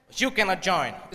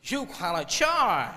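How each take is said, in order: First: Said in the usual way. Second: Drawn-out, mock American accent. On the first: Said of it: "style से बोलते बल्कि". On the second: Managing director refuses the group, slow American accent. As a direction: stretch it with a stylised American accent. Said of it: "American accent".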